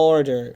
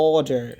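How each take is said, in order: The two takes are said the same way.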